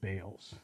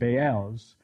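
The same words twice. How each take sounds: First: The word is pronounced the English way. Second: The word is pronounced the Hebrew way. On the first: "let's just go with Baals. It's easier for me" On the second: "Baals is how people who speak Hebrew pronounce it"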